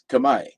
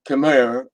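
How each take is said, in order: First: The word ends with a 'my' sound. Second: The word ends with a 'mer' sound. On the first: The speaker calls it right. "It's pronounced Kamai" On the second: The speaker calls it wrong. "it's not pronounced Khmer"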